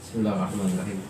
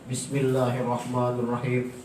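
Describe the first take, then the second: First: It is said quietly, under the breath. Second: It is said clearly and audibly aloud.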